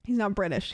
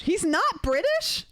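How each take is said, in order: First: Said in the usual way. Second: High-pitched, drawn-out incredulous question; stunned, much higher echo; shocked disbelief. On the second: Real, not acted. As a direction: repeat it in real astonishment, pitch leaping up. Stunned by the answer from chat.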